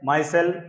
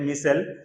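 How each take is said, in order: First: The first syllable sounds like 'my'. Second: The first syllable sounds like 'mi'. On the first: "कहा जा रहा है माइसेल" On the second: "या इसको pronounce कर सकते हैं मिसेल, दोनों तरह से ठीक है"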